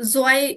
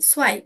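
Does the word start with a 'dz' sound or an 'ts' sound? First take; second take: dz sound; ts sound. First: The word starts with a voiced 'dz' sound. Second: The word starts with a voiceless 'ts' sound. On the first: The speaker calls it wrong. "জোয়াই না ভাইয়া" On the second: The speaker calls it right. "সোয়াই সোয়াই"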